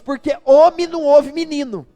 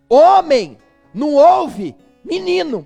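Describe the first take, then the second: First: It is said at a normal pace. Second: It is said slowly and deliberately.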